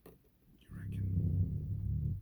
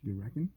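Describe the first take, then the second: First: Slow whispered Australian "reckon"; hushed, drawn-out Aussie "reckon"; whispered mock Aussie. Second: A hint of Aussie friend; mock Aussie accent. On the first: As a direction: breathe "You reckon?" out slowly like a mocking Aussie. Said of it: "The fuck you mean I reckon?". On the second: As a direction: poke fun at the Australian accent. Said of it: "his Australian accent".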